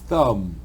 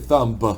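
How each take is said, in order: First: The word ends with the M sound. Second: The word ends with an audible B sound. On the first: The speaker calls it right. "It's thumb. So the last sound is going to be the M" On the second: The speaker calls it wrong. "the B is silent, so don't say thumb"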